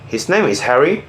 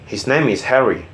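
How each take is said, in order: First: It is said as a question. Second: It is said as a statement.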